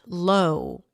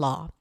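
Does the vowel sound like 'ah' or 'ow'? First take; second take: ow; ah. First: The vowel glides like 'ow' in now. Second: The vowel is one steady 'ah' sound. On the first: The speaker calls it wrong. "It's not low" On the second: The speaker calls it right. "and law"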